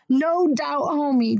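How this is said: It is yelped in mock disappointment.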